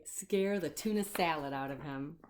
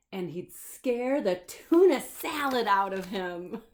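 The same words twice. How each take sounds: First: Said in the usual way. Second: Loud, slow, hitting "tuna"; slow loud "tuna" rising; emphatic read. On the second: A narrator's reading. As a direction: lean hard on "tuna salad", slow and loud. Reading punchline with emphasis.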